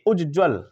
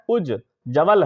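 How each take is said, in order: First: Both j sounds are short and joined together. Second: A full vowel separates the two j sounds. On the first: The speaker calls it right. "होना क्या चाहिए" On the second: The speaker calls it wrong. "यहां पे क्या है, उज जवल है"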